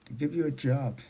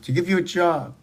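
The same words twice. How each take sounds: First: Quiet echo. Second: Said in the usual way. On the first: Real, not acted. Echoing the phrase under breath.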